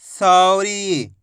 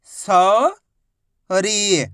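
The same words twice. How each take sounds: First: सौरी as one drawn-out word; syllables joined. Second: सौरी split into सौ, long pause, री; syllable by syllable. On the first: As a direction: blend सौ and री without a pause. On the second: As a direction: stretch सौ upward, pause, then a falling री. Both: Shown as a demonstration. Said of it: "तो मिलके बन जाएगा".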